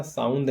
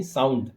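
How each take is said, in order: First: साउंड ending in a soft dental d; mispronounced साउंड. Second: साउंड ending in a hard retroflex d; corrected साउंड. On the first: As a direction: say साउंड with the tongue on the teeth for the final d. (साउंड के अंत में दंत्य द) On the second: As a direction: say साउंड with the tongue curled back for the final d. (साउंड के अंत में मूर्धन्य ड) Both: Shown as a demonstration. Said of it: "साउंड नहीं".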